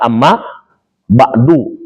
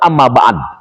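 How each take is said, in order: First: The phrase ends with a short 'u' vowel. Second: The final vowel is dropped after the last consonant. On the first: It is the full grammatical form used in a speech. The speaker calls it right. "harus dibaca amma ba'du" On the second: It is the pausal form used when stopping in recitation. The speaker calls it wrong. "jangan amma ba'd"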